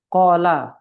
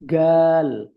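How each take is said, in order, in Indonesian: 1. Bunyinya diawali dengan bunyi q yang dalam. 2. Bunyinya diawali dengan bunyi g yang keras. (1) "dibacanya apa misalnya" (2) "Orang Aswan bilang"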